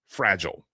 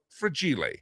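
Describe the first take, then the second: First: It is said the ordinary English way. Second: It is said with an Italian-sounding pronunciation. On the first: The speaker calls it right. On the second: The speaker calls it wrong.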